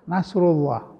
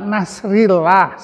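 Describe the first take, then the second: First: The vowel after nasr is a u sound. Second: The vowel after nasr is an i sound. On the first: The speaker calls it right. "Harus nasrullah" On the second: The speaker calls it wrong.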